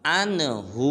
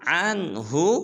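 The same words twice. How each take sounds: First: The final hu vowel is drawn out long. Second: The final hu vowel is kept short. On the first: The speaker calls it wrong. "ये बिल्कुल गलत है" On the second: The speaker calls it right. "हा को हरगिज़ लंबा नहीं करना"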